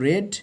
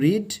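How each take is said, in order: First: The vowel is short, like in 'red'. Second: The vowel is long, like in 'reed'. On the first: It is the past form of the verb. "Second form রেড" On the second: It is the present form of the verb. "First form রিড"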